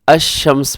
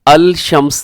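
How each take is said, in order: First: The L is dropped and the S is doubled. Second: The L sound is pronounced before the S. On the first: The speaker calls it right. "बल्कि अशम्स पढ़ते हैं" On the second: The speaker calls it wrong. "हम इसको अल शम्स नहीं पढ़ते"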